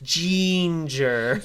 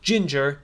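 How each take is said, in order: First: It is said in a B-movie Igor character voice. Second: It is said in a plain, normal voice.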